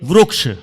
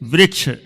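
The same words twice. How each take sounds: First: The first syllable uses an 'ru' sound. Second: The first syllable uses an 'ri' sound. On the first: This is how Maharashtra speakers say it. "Maharashtra अथवा उधर तरफ के बोलेंगे" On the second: This is the pure standard form. "सही है वृक्ष, वृक्ष ये शुद्ध है"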